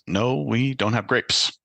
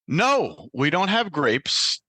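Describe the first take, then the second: First: The clerk sounds somewhat annoyed. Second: The clerk sounds very agitated.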